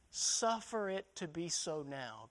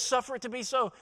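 First: Suffer drawn out, slow and soft; stress on suffer. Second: Said in the usual way. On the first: Shown as a demonstration. Preacher quoting Jesus to the church, stressing suffer slowly. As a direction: lean gently on the word suffer, slowly. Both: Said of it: "Go back and look at the words".

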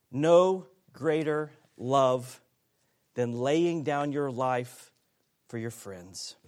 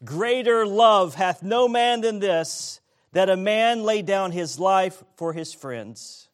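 First: Slow down and soften on "No greater love"; slow reflective restatement. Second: Congregation reading together, louder; many voices in unison. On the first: Shown as a demonstration. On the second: Real, not acted. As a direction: read the verse aloud in unison. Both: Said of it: "Let's read verse thirteen".

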